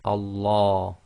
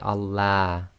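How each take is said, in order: First: The L is heavy, with a full mouth. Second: The L is light, with a thin mouth. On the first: The speaker calls it right. "the tafkhim sounds are heavy, that is full mouth" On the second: The speaker calls it wrong. "You can't say"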